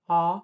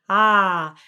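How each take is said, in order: First: The vowel is made with more rounded lips. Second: The vowel is made high in the back, less rounded. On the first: "a much more rounded ah, like A W" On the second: "an ah where your tongue is really high in the back"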